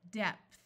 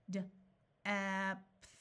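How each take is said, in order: First: Said in the usual way. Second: D-epth pulled apart, sound by sound. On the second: Shown as a demonstration. Teacher sounding out for a beginner reader. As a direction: segment D-epth slowly.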